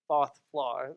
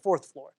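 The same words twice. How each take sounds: First: The R sounds are dropped. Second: The R sounds are clearly pronounced.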